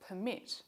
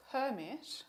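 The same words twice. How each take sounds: First: "permit" as a verb, per-MIT, second syllable stressed. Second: "permit" as a noun, PER-mit, first syllable stressed. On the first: Lecturer contrasting the verb with the noun, "permit" stressed on MIT. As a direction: land the weight on the end of "permit". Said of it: "with the verb permit". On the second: Lecturer showing students the noun, "permit" stressed on PER. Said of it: "compare the noun". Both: Shown as a demonstration.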